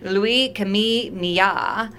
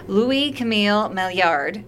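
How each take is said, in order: First: The name is said with a French pronunciation. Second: The name is said with an English pronunciation. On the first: "or in French" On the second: "that's the English pronunciation"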